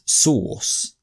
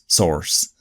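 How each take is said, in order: First: It is said with a British vowel, no r. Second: It is said with an American vowel and r. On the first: "For a British person, we would say that's source" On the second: "like an or, or, like source"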